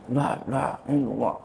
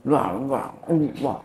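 First: The words are slurred and unclearly articulated. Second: The words are slurred and unclearly articulated.

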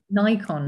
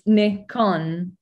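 First: The name is said in the American way. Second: The name is said in the non-American way. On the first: The speaker calls it wrong. "how it sounded from them when they say Nikon" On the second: The speaker calls it right. "it's a Japanese word, right? So it comes from Nippon Kogaku. So it's Nikon"

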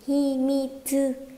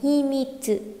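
First: The final tsu is said as a full syllable. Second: The final tsu is said weakly and reduced.

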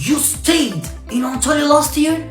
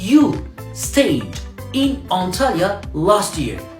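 First: It is said with question intonation. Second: It is said with statement intonation. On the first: It asks whether the fact is true. "Sen geçen sene Antalya'da mı kaldın?" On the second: It states a fact. "Sen geçen sene Antalya'da kaldın"

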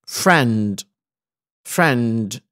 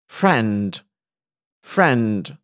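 Both takes have the same delivery.

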